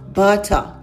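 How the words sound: The word is said in a British accent. "se fosse no British English, os Brits costumam dizer assim"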